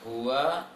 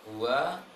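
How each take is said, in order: The two takes are said the same way.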